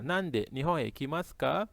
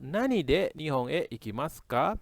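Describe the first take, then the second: First: The first word is the short form nande. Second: The first words are the full form nani de. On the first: It could also be asking why someone goes. The speaker calls it wrong. "dia bisa dibaca nande" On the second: It clearly asks by what means someone goes. The speaker calls it right. "Atau nani de"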